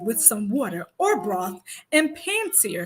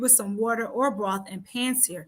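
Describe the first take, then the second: First: It is said in a put-on chef voice. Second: It is read in a normal speaking voice.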